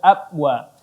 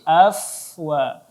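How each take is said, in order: First: The middle consonant is a b sound. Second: The middle consonant is an f sound. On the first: The speaker calls it wrong. "bukan abwa" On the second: The speaker calls it right. "tetapi afwa"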